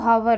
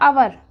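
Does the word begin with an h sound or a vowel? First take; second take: h sound; vowel. First: The word begins with an h sound. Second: The word begins with a vowel sound. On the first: The speaker calls it wrong. "है वाली sound दे रहा है" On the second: The speaker calls it right. "एच रहेगा आपका silent"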